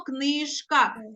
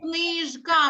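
First: The middle consonant is a voiceless sh sound. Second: The middle consonant is a voiced zh sound. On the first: "а чуємо" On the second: "ми пишемо"

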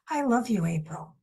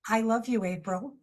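First: It is said warmly, with heartfelt feeling. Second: It is said flatly, like a plain sentence. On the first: The words are truly felt. "you can hear the tone of the voice" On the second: The words are recited without feeling. "which is just, you know, like a sentence"

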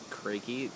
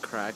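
First: The name is said as two syllables. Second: The name is said as one syllable. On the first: The speaker calls it right. "but it's actually Crakey" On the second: The speaker calls it wrong. "I was pronouncing it Crack Street"

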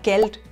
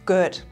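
First: The l sound is pronounced as a consonant. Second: The l sound is turned into a vowel.

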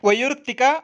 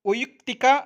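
No difference in how they are said.

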